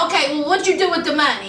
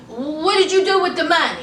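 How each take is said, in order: First: Fast, impatient repeat of the question; rapid-fire repeat. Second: Said in the usual way. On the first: Retold or imitated. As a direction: rattle the question off quickly, pressing him. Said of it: "so she was like". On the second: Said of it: "Shauna was like".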